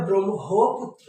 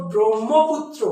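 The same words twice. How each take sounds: First: ব্রহ্মপুত্র said as "brom-ho-putro"; corrected pronunciation. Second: ব্রহ্মপুত্র said as "brom-mo-putro"; common mispronunciation. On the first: Teacher correcting students, ব্রহ্মপুত্র as "brom-ho-putro". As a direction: sound m, then a clear h in ব্রহ্মপুত্র. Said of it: "ওটার উচ্চারণ হবে". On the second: Teacher quoting students' mistake, ব্রহ্মপুত্র as "brom-mo-putro". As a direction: double m and no h in ব্রহ্মপুত্র. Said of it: "ওটা কিন্তু ম না". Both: Shown as a demonstration.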